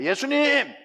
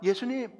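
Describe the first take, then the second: First: The word is said crisply and distinctly. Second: The word is mumbled half-heartedly and scattered. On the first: The crowd answers with conviction. "또박또박 이야기합니다" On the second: The crowd answers without conviction. "덤성덤성 이렇게 대답이"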